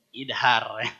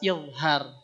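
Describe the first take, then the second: First: The middle consonant is a d sound. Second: The middle consonant is a z sound. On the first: The speaker calls it wrong. "bukan idhar" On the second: The speaker calls it right. "Kan artinya jelas"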